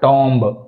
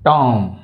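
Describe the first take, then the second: First: The word ends with an audible b. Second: The word ends in m with no b. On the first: The speaker calls it wrong. "Not టాంబ్" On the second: The speaker calls it right. "Only టామ్"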